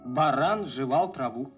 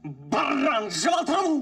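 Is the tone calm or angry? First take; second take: calm; angry. First: It is said in a calm, plain tone. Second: It is said in an angry tone.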